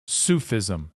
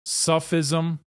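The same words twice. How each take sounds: First: "Sufism" as SOO-fizm, vowel of "food"; long-u Sufism. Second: "Sufism" as SUFF-izm, vowel of "cup"; short-u Sufism. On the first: Lecturer giving the other pronunciation of the word, "Sufism" said SOO-fizm. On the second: Lecturer giving one pronunciation of the word, "Sufism" said SUFF-izm. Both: Shown as a demonstration. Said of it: "has been pronounced".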